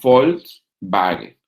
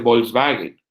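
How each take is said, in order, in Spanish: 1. La palabra empieza con un sonido F. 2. La palabra empieza con un sonido parecido a B. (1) "en alemán se dice Volkswagen, porque la V es F y la W es B" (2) "Volkswagen no se dice Volkswagen"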